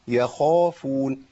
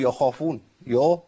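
First: The word ends cleanly with no extra vowel. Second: The word ends with an added trailing vowel sound. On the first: The speaker calls it right. "شوف بخلص ازاي" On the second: The speaker calls it wrong. "والا هقول يخافون يا، برضو ما فيش يا"

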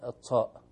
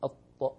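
First: The final consonant is released with extra air. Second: The final consonant is released crisply without air. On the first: The speaker calls it wrong. "ما نقول الطاء" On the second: The speaker calls it right. "نقول الطاء"

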